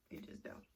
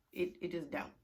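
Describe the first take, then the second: First: "It just don't" breathed out as a soft whisper; whispered repeat. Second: Said in the usual way. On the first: Shown as a demonstration. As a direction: repeat it under your breath.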